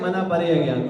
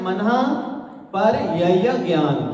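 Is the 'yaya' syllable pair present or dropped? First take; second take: dropped; present. First: The 'yaya' syllables are left out. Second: The 'yaya' syllables are fully pronounced. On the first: The speaker calls it wrong. "लेकिन अपन क्या कहते हैं" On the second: The speaker calls it right. "उसमें आता है"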